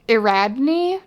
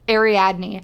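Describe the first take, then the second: First: The name is said as a guess, sounding like Iradne. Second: The name is said as Ariadne, after checking it. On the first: The speaker calls it wrong. "I'm going to say it wrong because I don't know how to say it" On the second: The speaker calls it right. "It's it's Ariadne"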